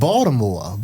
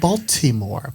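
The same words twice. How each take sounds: First: The middle consonant is a d sound. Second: The middle consonant is a clear t sound. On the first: A local says the city's name. The speaker calls it right. "We turn the T into a D" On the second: An outsider says the city's name. The speaker calls it wrong. "people say, oh, you're from Baltimore. But that's not how Baltimoreans say it"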